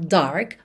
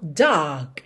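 First: The R sound is clearly pronounced. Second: The R sound is not pronounced. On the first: "e não dark, mas se você quiser, claro, pode enrolar a língua" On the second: "atenção, dark"

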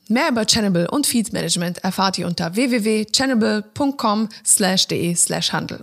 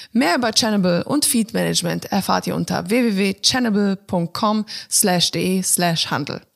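Both takes have the same delivery.

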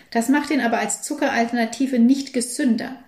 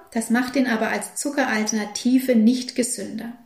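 No difference in how they are said.

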